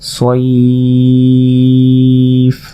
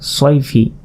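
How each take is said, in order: First: The word stops short on a plain f sound. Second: The word ends with a final -i vowel. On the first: The reader pauses at this word. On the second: The reading continues without stopping.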